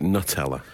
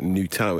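First: It is said the usual British way. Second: It is said the continental European way. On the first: "in Britain, we've always called it Nutella" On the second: "on the continent, call it Nutella"

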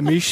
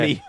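First: The final T is clearly pronounced. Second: The final T is dropped. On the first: "You say meet like like it's a lump of steak" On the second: "I don't even pronounce the T"

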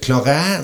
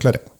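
First: The word is pronounced the French way. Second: The word is pronounced the English way. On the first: "som det heter på fransk" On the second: "men det greide jo ikke brittene å si, så de kalte det claret"

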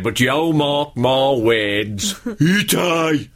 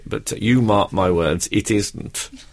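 First: It is said in a broad Black Country accent. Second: It is said in a plain standard accent. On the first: "I don't know if you'll be able to understand this" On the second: "in other words"

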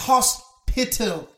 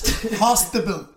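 First: The word is said as 'hospital'. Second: The word is said as 'hostable'. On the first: The speaker calls it right. "Which is hospital" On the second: The speaker calls it wrong. "Says hostable"

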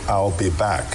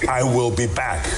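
First: The words 'I will' are contracted to 'I'll'. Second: The words 'I will' are said in full. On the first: The speaker calls it wrong. "the I'll sounded weird to me" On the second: The speaker calls it right. "The Terminator would say"

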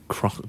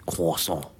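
First: The word is said with an R sound. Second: The word is said without an R sound. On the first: The speaker calls it wrong. "I keep saying it wrong. I keep saying croissant" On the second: The speaker calls it right. "you don't say the R"

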